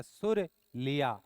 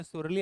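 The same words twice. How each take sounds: First: सुर लिया broken into सुर, pause, लिया; word split in two. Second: Said in the usual way. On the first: Shown as a demonstration. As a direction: say सुर लिया slowly as two separate words. (सुर लिया को धीरे-धीरे, दो टुकड़ों में तोड़कर) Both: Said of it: "सुर लिया कहाँ से लेते हैं".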